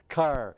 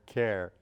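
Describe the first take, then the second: First: The word sounds like "car", in a Kentucky accent. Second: The word is said in a standard American accent.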